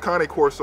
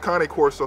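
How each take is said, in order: First: The name is said with an Italian pronunciation. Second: The name is said with an Italian pronunciation.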